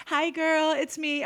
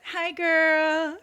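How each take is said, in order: First: Higher sing-song hi; sweetly innocent hello; chirpy playful greeting; mock cheery greeting. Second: Higher, bright sing-song hi; chirpy mock greeting; mock cheery greeting. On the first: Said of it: "I'm like". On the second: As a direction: greet her sweetly, playing innocent. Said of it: "I'm like this".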